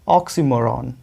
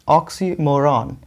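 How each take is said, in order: First: The second syllable has an 'ee' vowel. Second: The same.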